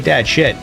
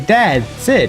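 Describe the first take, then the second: First: The last word starts with an sh sound. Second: The last word starts with an s sound.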